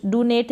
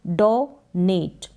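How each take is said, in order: First: "डोनेट" with the first vowel as a short "du"; "डोनेट" mispronounced, first syllable "du" instead of "do"; wrong pronunciation. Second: "डोनेट" slowly in two parts, "do" and "net"; "डोनेट" sounded out slowly with a clear "o"; correct pronunciation. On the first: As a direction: say "डोनेट" wrongly as "doo-net". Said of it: "नहीं पढ़ेंगे इसको, डो और नेट". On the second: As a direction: break "डोनेट" into a long "do", then "net". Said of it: "डो और नेट". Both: Shown as a demonstration.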